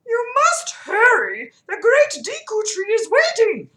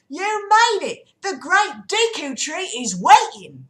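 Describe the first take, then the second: First: Very high, loud cartoon voice; urgent Kokiri leader. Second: High, loud, drawn-out Cockney greeting. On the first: Mido hurries the visitors onward, high urgent call. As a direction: squeal it out urgently, pitched way up. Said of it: "Mido said as he ushered us onward". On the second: Acted. Saria greets the arriving riders, loud high Cockney. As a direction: call it out slowly in a big Cockney voice. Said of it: "I'll do the Cockney".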